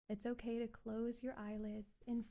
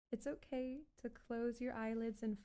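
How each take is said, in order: Both takes have the same delivery.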